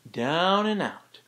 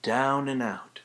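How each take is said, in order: First: "Down and out" higher and slow, falling off. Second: "Down and out" falling, pushed down. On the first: Tutor modelling the down and out push again. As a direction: draw out "Down and out" slowly with a fall. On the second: Tutor modelling the down and out push. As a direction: let "Down" drop and "out" fall away. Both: Shown as a demonstration. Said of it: "it's coming down and out".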